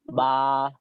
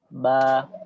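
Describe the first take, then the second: First: The vowel is said with the mouth opened very wide. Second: The vowel is said with the mouth normally open. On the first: The speaker calls it wrong. "kita tidak terlalu buka mulut, ba, tidak" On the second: The speaker calls it right. "Biasa saja"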